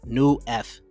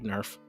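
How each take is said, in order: First: The name is said as two separate parts. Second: The name runs together into one syllable. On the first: "New F, right? New F" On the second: "it just comes out like Nerf"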